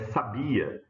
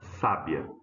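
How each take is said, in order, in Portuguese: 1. A tônica está na segunda sílaba. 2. A tônica está na primeira sílaba. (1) "é o verbo saber" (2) "a sílaba tônica é essa, né? Ó, sa"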